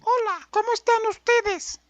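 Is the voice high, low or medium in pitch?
high. The voice is high and childlike.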